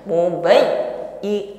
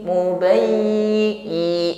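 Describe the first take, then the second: First: The doubled y sound is pressed and cut off. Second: The doubled y sound is pressed but keeps sounding. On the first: The speaker calls it wrong. "memutus bunyi ya-nya ini tidak seharusnya" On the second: The speaker calls it right. "bunyi ya-nya tetap ada"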